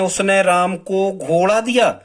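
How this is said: The word घोड़ा carries the stress. "अब हम घोड़ा पे जोर दे रहे हैं"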